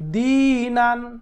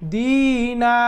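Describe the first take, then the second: First: The word ends with a final n sound. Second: The word ends with a lengthened a vowel. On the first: The reading continues without stopping. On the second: The reader stops on this word.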